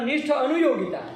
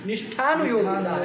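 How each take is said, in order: First: The two words are said separately without merging. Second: The words merge into one with a long vowel. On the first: The speaker calls it wrong. "ऐसा नहीं ना होता है" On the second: The speaker calls it right. "कोई दीर्घ हो जाएगा ना"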